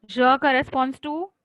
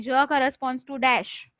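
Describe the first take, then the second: First: Je corresponds to, said slowly with the voice left rising and hanging; prompting rise. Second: Said in the usual way. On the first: Shown as a demonstration. Teacher prompting the class to finish the sentence, rising and open. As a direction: leave it open so the class fills in the answer. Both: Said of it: "look at the table and tell me".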